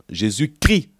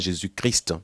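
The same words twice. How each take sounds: First: Christ ends without the st sound, like crie. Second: Christ ends with a clear st sound. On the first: It is a false preaching of the name. The speaker calls it wrong. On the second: It is the true name. The speaker calls it right.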